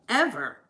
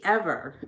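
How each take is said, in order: First: Laughing. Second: Said in the usual way. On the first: Shown as a demonstration. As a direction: repeat it with a laugh, higher.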